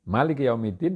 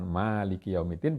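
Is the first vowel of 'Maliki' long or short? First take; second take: short; long. First: The first vowel of Maliki is short. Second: The first vowel of Maliki is long. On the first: It means king of the day of judgment. "di situ ada banyak raja" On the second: It means owner of the day of judgment. "Kalau dikatakan Maliki Yaumiddin berarti hanya Allah"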